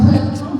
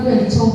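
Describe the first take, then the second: First: "welcome" said the right way, with clear English sounds; correct pronunciation. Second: "welcome" said the wrong way, as the teacher said it yesterday; wrong pronunciation. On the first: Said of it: "nah, welcome". ("welcome" diucapkan dengan benar) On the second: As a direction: say "welcome" the mistaken way. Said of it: "bukan welcome". ("welcome" diucapkan dengan salah) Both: Shown as a demonstration.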